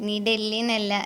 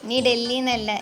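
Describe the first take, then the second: No difference in how they are said.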